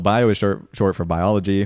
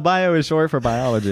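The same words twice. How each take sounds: First: It is read in a plain, ordinary voice. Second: It is read in an exaggerated, put-on voice.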